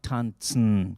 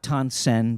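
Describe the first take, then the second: First: The ending is said nasally. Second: The ending is plain, not nasal. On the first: The speaker calls it right. "you pronounce it kind of nasally" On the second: The speaker calls it wrong. "Not Tansen"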